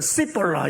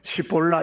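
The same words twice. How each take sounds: First: The word begins with a plain s sound. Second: The word begins with an sh sound. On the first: "이 사람들은 시볼라 이래요" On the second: "에스에이치 발음은 시볼라 이렇게 얘기를 했는데"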